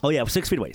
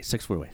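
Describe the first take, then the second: First: Said in the usual way. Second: Low, soft muttered repeat; quiet repeat. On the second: Shown as a demonstration. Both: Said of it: "[name], please".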